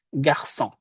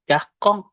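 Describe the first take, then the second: First: The c is sounded as an s. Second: The c is sounded as a hard k. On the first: The speaker calls it right. "Karena ada ekornya, maka kita baca menjadi se" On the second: The speaker calls it wrong. "Kalau tanpa sedi, maka dia dibacanya men- menjadi"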